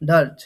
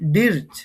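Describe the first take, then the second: First: The vowel sounds like 'ur' in 'fur'. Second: The vowel sounds like a short 'i'. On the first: The speaker calls it right. "প্রনাউন্সিয়েশনটা হবে ডার্চ।" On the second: The speaker calls it wrong. "ডির্চ বা ডার্চ, এটার উচ্চারণটা কি হবে?"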